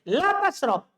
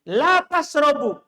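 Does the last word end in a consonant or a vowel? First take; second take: consonant; vowel. First: The last word ends on a bare consonant. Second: The last word ends with a short u vowel. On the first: Do not drink. "Kalau saya baca begini" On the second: You do not drink. "Kalau saya baca begini"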